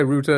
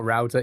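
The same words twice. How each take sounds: First: Router like "rooter"; own pronunciation. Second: Router like "rowter"; rejected pronunciation. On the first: Streamer defending their own way, router as "rooter". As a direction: say router with an "oo" vowel. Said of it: "I always say router". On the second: Streamer dismissing the Americanism, router as "rowter". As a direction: say router to rhyme with "doubter". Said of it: "not router". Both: Shown as a demonstration.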